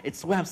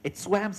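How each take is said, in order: No difference in how they are said.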